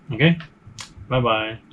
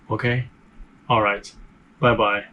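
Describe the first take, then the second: First: Said in the usual way. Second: Stiff robotic sign-off. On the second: Real, not acted. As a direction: say bye like a robot, mechanical. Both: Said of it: "Why am I speaking like a robot?".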